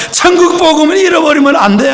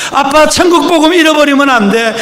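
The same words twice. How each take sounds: First: Higher and louder, rising at the end; a daughter's crying insistence on 천국; urgent tearful plea. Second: Higher and louder crying plea; a daughter's pleading cry, stressing 천국; urgent tearful plea. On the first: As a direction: plead again, pressing hard on 천국. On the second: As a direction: beg dad not to lose it, pressing on 천국. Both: Retold or imitated. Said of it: "딸이 막 울면서".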